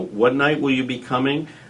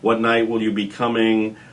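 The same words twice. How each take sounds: First: It is said warmly, with a smile in the voice. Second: It is said in a flat, businesslike way. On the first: The caller is building a bond with the person. The speaker calls it right. "a very friendly voice, with a smile in their voice" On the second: The caller is just processing a booking. The speaker calls it wrong. "a clerical uh, way of taking the reservation"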